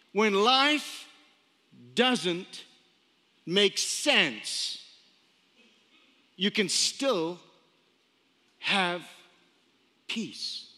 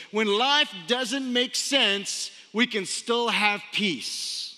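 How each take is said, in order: First: Measured emphatic repeat with long pauses; phrase by phrase. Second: Slow, weighty reading of the quote; unhurried quoting voice. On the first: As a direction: spell it out piece by piece, letting each pause sink in. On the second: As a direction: let the line land slowly. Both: Shown as a demonstration.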